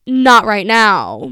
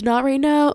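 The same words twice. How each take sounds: First: Slow, loud NOW stretched out as it falls; "now" drawled long and falling; last syllable dragged out. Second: Said in the usual way. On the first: Retold or imitated. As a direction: drag out "now" in an annoyed refusal. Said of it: "I said it in that tone".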